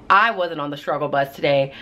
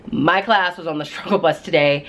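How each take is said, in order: First: "I" picked out as a correction; stress on I. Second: "class" picked out against "I"; stress on CLASS. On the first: Teacher correcting herself to viewers, stress on "I". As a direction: lean on "I" to shift the blame elsewhere. Correcting who had struggled. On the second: Teacher pinning the struggle on students, stress on "class". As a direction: lean on "class", with a little laugh. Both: Real, not acted.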